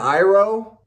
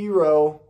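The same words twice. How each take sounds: First: The name has its familiar pronunciation. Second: The name has an altered pronunciation. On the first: This is how the name is said in the show. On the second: This is how the name is said in the film.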